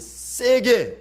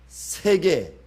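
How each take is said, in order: First: The first consonant is a hard, tense ss. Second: The first consonant is a soft, plain s. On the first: It sounds more real and forceful. The speaker calls it right. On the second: It matches the written form. The speaker calls it wrong.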